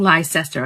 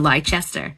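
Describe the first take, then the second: First: The word is said without a 'ch' sound. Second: The word is said with a 'ch' sound. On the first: "I'm saying Leicester" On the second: "Unless the C after the E is a ch sound"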